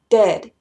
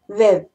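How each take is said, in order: First: The d sounds are crisp, clear stops. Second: The d sounds are soft, like th. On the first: The speaker calls it right. "tiene que ser dead" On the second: The speaker calls it wrong. "como si fuera dedo"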